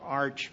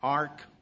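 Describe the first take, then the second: First: The word ends with a ch sound. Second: The word ends with a k sound. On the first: "then that pronunciation, we would probably say arch" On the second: "we generally would pronounce it as ark"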